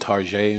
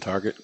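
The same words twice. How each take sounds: First: The word is said with a French-style ending. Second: The word is said with plain English sounds. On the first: It makes the store sound fancier and more expensive. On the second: It is the ordinary name of the store.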